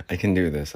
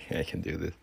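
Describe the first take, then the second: First: Said in the usual way. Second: Breathless whisper to self. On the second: Real, not acted. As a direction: whisper it to psych up. Whispered pep talk.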